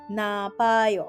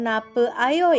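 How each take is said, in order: First: The e vowel is dropped, merging into ayo. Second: The e vowel is kept before ayo. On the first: The speaker calls it right. "tetapi menjadi napayo" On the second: The speaker calls it wrong. "Bukan nape ayo ya"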